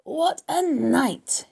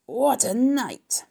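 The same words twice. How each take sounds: First: Very slow, high swooping hoarse cry; hoarse repeat. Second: Drawn-out, swooping, husky wail; husky exclamation. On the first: Gorged rat relives his night, hoarse and very drawn out. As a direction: savour each word hoarsely, stretched long. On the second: Rat back from a night of feasting, husky and drawn out. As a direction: stretch it high and slow, husky. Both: A narrator's reading. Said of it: "he repeated hoarsely".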